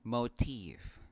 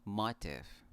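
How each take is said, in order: First: MOTIF said moh-TEEF, long o, stressed second syllable; careful model "Motif" with an o diphthong; correct pronunciation. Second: "motif" said MAH-tif, short vowels; common mispronunciation. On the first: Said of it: "this word is pronounced". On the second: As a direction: stress the first syllable of "motif": MAH-tif. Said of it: "I often hear people say this word". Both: Shown as a demonstration.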